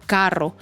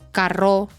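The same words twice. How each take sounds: First: The stress is on the first syllable. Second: The stress is on the last syllable. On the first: The speaker calls it right. "el golpe de voz va en la palabra K" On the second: The speaker calls it wrong. "dilo en la última"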